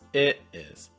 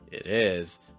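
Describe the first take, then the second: First: The stress falls on the word it. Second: The stress falls on the word is. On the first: "the second one, you're stressing it" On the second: "In the first one, you're stressing is"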